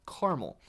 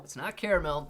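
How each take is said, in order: First: "Caramel" in two syllables, KAR-mel; caramel said right. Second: "caramel" as KAIR-uh-mel, three syllables; mock "caramel" as KAIR-uh-mel; mock other pronunciation. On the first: Shown as a demonstration. Asked by chat, says "Caramel" as KAR-mel. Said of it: "Say caramel right". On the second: Mocking chat's "caramel" as KAIR-uh-mel. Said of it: "Nobody says that".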